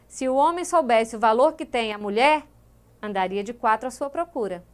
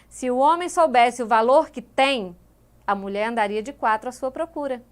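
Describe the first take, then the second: First: The pause comes after "mulher". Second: The pause comes after "tem".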